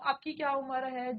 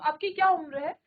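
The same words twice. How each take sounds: First: It has a flat intonation, like a statement. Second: It has a curious, questioning intonation. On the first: The speaker seems to have no real interest in asking. The speaker calls it wrong. "आपको समझ नहीं आएगा कि question ही पूछ रही है क्या" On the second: The speaker genuinely wants to know. The speaker calls it right. "आपको पता लगेगा कि ये क्वेश्चन पूछ रही है"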